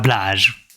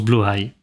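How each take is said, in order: First: The first vowel sounds like an 'a'. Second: The first vowel sounds like an 'o'. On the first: The speaker calls it wrong. "et pas Blahaj" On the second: The speaker calls it right. "ça se prononce Blåhaj"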